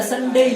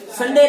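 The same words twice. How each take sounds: First: संडे with a gliding "dei" ending; English-style संडे, drawn-out "ei" diphthong; proper English pronunciation. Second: संडे with a short, plain final "e"; local-style संडे, final vowel kept pure "e"; local pronunciation. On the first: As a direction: say संडे as "san-dei", final vowel sliding to i. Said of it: "इसको ऐसे बोलते हैं". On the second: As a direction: say संडे ending in a flat "de", no glide. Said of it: "संडे नहीं बोलते हैं". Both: Shown as a demonstration.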